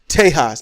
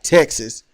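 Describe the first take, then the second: First: The name is said in its original pronunciation. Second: The name is said in its usual modern pronunciation. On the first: "I'm going to pronounce it the way it was originally" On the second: "not Texas"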